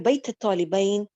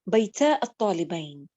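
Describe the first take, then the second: First: The phrase is said quickly, words run together. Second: The phrase is said slowly, words kept apart.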